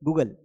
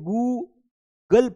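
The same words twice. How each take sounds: First: The word is said quickly and clipped. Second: The word is said slowly and drawn out. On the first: The speaker calls it right. "Fast पढ़ना है इसको" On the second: The speaker calls it wrong. "कई लोग Google को क्या पढ़ते हैं"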